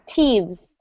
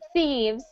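First: The word begins with a plain t sound. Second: The word begins with a th sound. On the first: The speaker calls it wrong. "I notice that you turn it more into a T" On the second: The speaker calls it right. "stick your tongue out ... like this"

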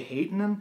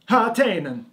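First: The name is said plainly, without an Italian flourish. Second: The name is said with an Italian-sounding flourish. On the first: "so I'm just gonna say Haatainen" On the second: "when I say it like that, I kind of sound like I'm in a pasta commercial"

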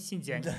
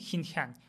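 First: The word begins with a soft s sound. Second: The word begins with a harsh kh sound. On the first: The speaker calls it right. "мы говорим синьцзян" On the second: The speaker calls it wrong. "мы же не говорим хинхян"

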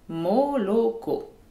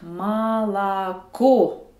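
First: The first two vowels sound like O. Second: The first two vowels sound like A. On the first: The speaker calls it wrong. "C'est écrit moloko" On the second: The speaker calls it right. "Un O non accentué devient A. ... je dois dire malako"

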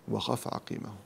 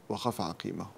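The two takes are said the same way.

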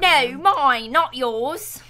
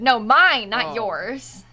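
First: It is said in a mock British accent. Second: It is said in the speaker's normal accent.

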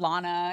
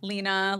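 First: The first vowel sounds like 'ah'. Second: The first vowel sounds like 'ee'. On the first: The speaker calls it wrong. "a lot of people say it wrong" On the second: The speaker calls it right. "He said my name right"

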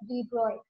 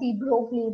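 First: The name is said with a French pronunciation. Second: The name is said with an Indian pronunciation. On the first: The speaker calls it right. "The pronunciation of this name is De Broglie" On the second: The speaker calls it wrong. "In India, we pronounce it as De Broglie, but it is wrong"

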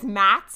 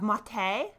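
First: It is one syllable with no final vowel. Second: It ends in a vowel with no s sound. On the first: This is the commonly heard version. "which is really common" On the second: It sounds fancy and French. "the fancy French version of maté, so we drop the S"

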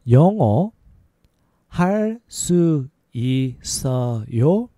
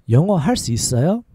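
First: It is said at a slower pace. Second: It is said at a faster pace.

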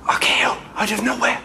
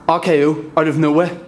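First: It is said in a whisper. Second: It is said aloud in full voice.

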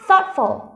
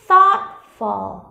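First: The word is said quickly. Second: The word is said slowly. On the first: "Đọc nhanh hơn nào" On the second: "mình cứ đọc chậm thôi"

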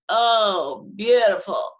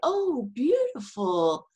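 First: It is said in a sarcastic, mocking tone. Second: It is said in a sincere, admiring tone. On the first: It is not beautiful at all. "they're saying the opposite of what they mean" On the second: It really is beautiful. "you get the idea that the person is remarking how beautiful it is"

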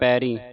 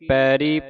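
First: The final vowel is nasalized. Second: The final vowel is plain, not nasalized. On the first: The speaker calls it wrong. "ਬਿੰਦੀ ਲਾ ਕੇ ਪੈਰੀ" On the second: The speaker calls it right. "ਬਿੰਦੀ ਨਹੀਂ ਲਾਉਣੀ"

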